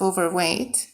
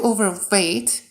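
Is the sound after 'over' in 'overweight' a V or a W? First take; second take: W; V. First: The second part starts with a W sound. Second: The second part starts with a V sound. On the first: The speaker calls it right. "instead of overweight" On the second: The speaker calls it wrong. "I'll say overweight instead of"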